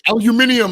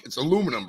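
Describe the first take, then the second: First: Mock British aluminium, "al-you-MIN-ee-um", high and loud; British pronunciation. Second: Said in the usual way. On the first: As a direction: pipe up with a British-style aluminium. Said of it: "aluminium like the Brits did". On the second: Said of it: "You're like".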